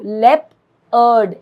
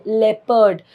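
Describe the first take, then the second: First: लेपर्ड broken slowly into लेप and अर्ड; split into syllables. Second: Said in the usual way. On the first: Shown as a demonstration. Teacher showing pupils the first sound, लेपर्ड slowly split by syllable. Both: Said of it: "जो first sound आप निकालते हो".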